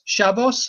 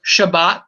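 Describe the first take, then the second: First: The word ends with an s sound. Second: The word ends with a t sound. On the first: "Have you ever heard seen them say Shabbos?" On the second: "change of S into T, it, you know, like Shabbat"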